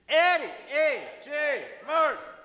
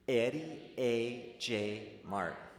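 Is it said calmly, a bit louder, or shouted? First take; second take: shouted; calmly. First: It is shouted at full volume. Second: It is said calmly at normal volume.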